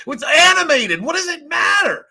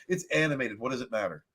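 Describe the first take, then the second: First: High, loud mocking outburst; mock outrage. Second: Said in the usual way. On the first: Mocking the angry actor, high shrill outburst. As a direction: shriek it in mock indignation. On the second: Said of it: "repeats quote in own voice".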